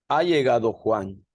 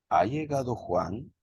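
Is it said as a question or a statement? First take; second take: statement; question. First: It is said with a statement intonation. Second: It is said with a question intonation. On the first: It states that Juan has arrived. "Afirmativa, porque estoy diciendo" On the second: It asks whether Juan has arrived. "una interrogación"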